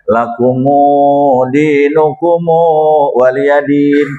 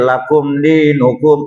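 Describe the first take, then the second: First: "lakumu dinukumu" drawn out slowly with added u endings; alternate recitation. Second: "lakum dinukum" recited slowly, short endings; recited plain. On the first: Preacher showing another dialect reading, drawn out slowly. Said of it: "Ada yang bacaan". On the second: Preacher showing the common reading, recited slowly. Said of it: "bacaan-bacaan yang lain seperti". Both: Shown as a demonstration.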